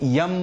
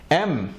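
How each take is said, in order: First: It starts with a y sound before the vowel. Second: It starts directly with the vowel, no y. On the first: The speaker calls it wrong. "बिगड़ा हुआ pronunciation है" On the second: The speaker calls it right. "इसमें भी वही मुआमला है"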